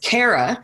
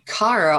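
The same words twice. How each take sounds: First: The name is said with a hard A vowel. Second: The name is said with a soft A vowel. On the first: The speaker calls it right. "and yet your name is Kara" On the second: The speaker calls it wrong. "because I use soft A's"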